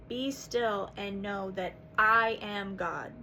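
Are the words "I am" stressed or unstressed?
stressed. The words "I am" are stressed.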